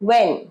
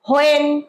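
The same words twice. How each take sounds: First: The word begins with a w sound. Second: The word begins with an h sound. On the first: The speaker calls it right. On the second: The speaker calls it wrong.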